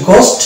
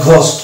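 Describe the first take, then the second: First: গোস্ট with a plain g, no breath; British pronunciation. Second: ঘোস্ট with an aspirated gh; American pronunciation. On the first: Teacher showing British ghost, plain g. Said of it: "এটা হচ্ছে গোস্ট". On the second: Teacher showing American ghost, aspirated gh. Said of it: "আর ঘোস্ট". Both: Shown as a demonstration.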